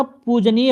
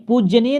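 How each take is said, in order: First: "पूजनीय" as poo-ja-neey, no y after j; corrected form poojaneey. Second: "पूजनीय" with a heavy jye, puj-jye-neey; weight the j in "पूजनीय": puj-jye; wrong form pujjyaneey. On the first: Teacher correcting students, "पूजनीय" as poo-ja-neey. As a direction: say "पूजनीय" slowly with a plain ja. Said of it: "पूजनीय होता है". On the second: Teacher rejecting the word, "पूजनीय" as puj-jye-neey. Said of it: "पूजनीय नहीं होता". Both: Shown as a demonstration.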